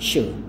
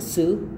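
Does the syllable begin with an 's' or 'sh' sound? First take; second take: sh; s. First: The syllable begins with an sh sound. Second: The syllable begins with a plain s sound. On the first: The speaker calls it right. "tapi shu" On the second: The speaker calls it wrong. "Jadi bukan su aja, su bukan"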